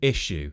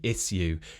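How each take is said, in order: First: The middle is a single sh sound. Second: The middle is a separate s and y sound. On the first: It sounds ordinary and modern. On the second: It sounds traditional and upper-class.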